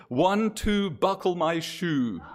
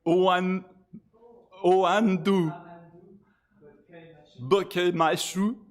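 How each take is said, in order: First: "One, two, buckle my shoe" in clear English, drawn out; plain English rhyme. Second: "O An-, O Andu. Buke Machu" in slow, separated French syllables; French-sounding rhyme. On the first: Host decoding the rhyme, "One, two" in deliberate English. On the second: Host revealing hidden numbers, "O Andu" said French-style. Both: Shown as a demonstration. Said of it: "Did, did you hear the numbers?".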